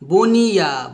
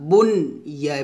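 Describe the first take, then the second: First: The n runs smoothly into the following y. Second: The n is said clearly, apart from the y. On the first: The speaker calls it wrong. "বনিয়া বলা যাবে না" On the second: The speaker calls it right. "এভাবে"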